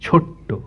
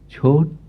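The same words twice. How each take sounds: First: A forceful breath stress falls on the first syllable. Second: Only a gentle pitch accent, with no breath stress. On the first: "এই ছয়ের ওপরে যে শ্বাসাঘাত পড়ছে সেটা ট পর্যন্ত টেনে নিয়ে যাচ্ছে" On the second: "এখানে শ্বাসাঘাত নেই, এখানে শুধু সুরাঘাত আছে"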